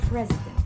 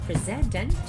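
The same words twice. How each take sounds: First: The stress is on the first syllable. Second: The stress is on the second syllable. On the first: The speaker calls it right. "President is stressed on the first syllable" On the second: The speaker calls it wrong. "not on the second syllable. That it will sound president"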